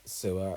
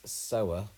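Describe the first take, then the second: First: "sewer" said like sue-er, as in a drain; "sewer" with an oo vowel. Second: "sower" said like so-er, one who sows seed; "sower" rhyming with grower. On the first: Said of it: "actually, it's sower". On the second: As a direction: pronounce "sower" with a long o, so-er. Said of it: "So it's not sewer". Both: Shown as a demonstration.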